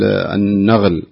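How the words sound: The consonant after the article is a gh sound. The speaker calls it wrong. "بعض الناس يقول النغل"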